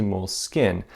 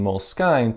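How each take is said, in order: First: Moleskine as "mole-skin", short i at the end; new pronunciation. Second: Moleskine as "mole-skine", rhyming with sign; long eye in the end of Moleskine; old pronunciation. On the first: Showing viewers the new way, Moleskine said "mole-skin". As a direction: Moleskine ending just like the word skin. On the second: Showing viewers the old way, Moleskine said "mole-skine". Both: Shown as a demonstration. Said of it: "I've changed my pronunciation from Moleskine to Moleskine".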